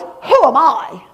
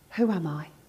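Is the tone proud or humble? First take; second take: proud; humble. First: It is said in a proud tone. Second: It is said in a humble tone.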